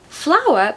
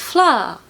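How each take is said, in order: First: It is said as two syllables with a W glide. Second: It is said as one syllable with no W.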